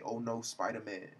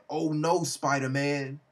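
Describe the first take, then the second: First: Softer, subdued echo of a villain's cry; understated retold quote. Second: Alarmed villain. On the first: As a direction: repeat it softly to yourself, savouring it. Savours the quote in own voice. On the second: Acted. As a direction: exclaim as a villain caught by the hero. Villain's startled cry at the hero.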